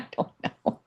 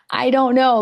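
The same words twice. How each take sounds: First: Breathy half-laughed whisper; "don't know" whispered under her breath. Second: Louder and higher, laughing "I don't know"; half-laughing exclamation of "I don't know"; loud laughing outburst. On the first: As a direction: drop to a whisper, laughing at yourself. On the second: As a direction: blurt it out, giggling and exasperated. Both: Real, not acted. Laughing, flustered at the camera.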